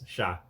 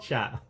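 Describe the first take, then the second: First: The final t is silent. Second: The final t is pronounced aloud. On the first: The speaker calls it right. "It's chat" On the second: The speaker calls it wrong. "It's not chat"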